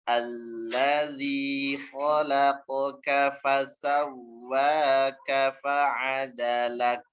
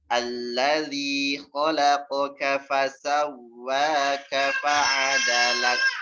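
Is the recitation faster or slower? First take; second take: slower; faster. First: It is recited at a slower, drawn-out tempo. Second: It is recited at a faster, normal tempo.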